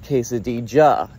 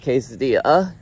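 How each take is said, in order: First: The double L sounds like an English J. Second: The double L sounds like an English Y. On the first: The speaker calls it right. "it's called a quesadilla" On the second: The speaker calls it wrong. "not a quesadilla"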